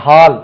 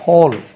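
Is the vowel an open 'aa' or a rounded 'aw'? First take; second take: open aa; rounded aw. First: The vowel is an open Tamil-style 'aa'. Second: The vowel is a rounded 'aw', like hole. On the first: The speaker calls it wrong. "அது ஹால்" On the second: The speaker calls it right. "அது ஹோல் என்று தான் உச்சரிக்கணும்"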